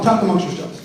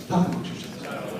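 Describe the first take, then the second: First: Said in the usual way. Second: "Talk amongst yourselves" in a whisper. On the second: Shown as a demonstration. MC cueing a chatty crowd, whispered. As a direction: breathe the line out unvoiced. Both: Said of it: "If you guys are all talking".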